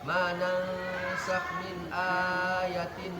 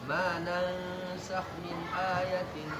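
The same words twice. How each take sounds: First: A long vowel is stretched too long. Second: The long vowels are held for an even length. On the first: The speaker calls it wrong. "hanya kepanjangan" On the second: The speaker calls it right. "Kalau dua harakat ya"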